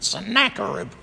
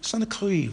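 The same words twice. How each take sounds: First: The name is said with its usual English pronunciation. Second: The name is said with its Hebrew pronunciation. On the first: The speaker calls it wrong. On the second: The speaker calls it right.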